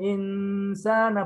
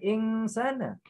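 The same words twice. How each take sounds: First: The n is a hidden nasal close to s. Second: The n is sounded like a clear ng. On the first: The speaker calls it right. "Khalaqal insana" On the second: The speaker calls it wrong. "bukan insana. ... ing pakai eng"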